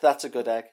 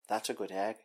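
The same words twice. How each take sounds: First: It is said in his own voice. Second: It is said as an impression of Littlefinger.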